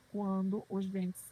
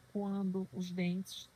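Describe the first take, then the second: No difference in how they are said.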